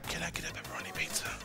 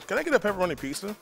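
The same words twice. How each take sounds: First: It is spoken in a quiet whisper. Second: It is spoken in a normal full voice.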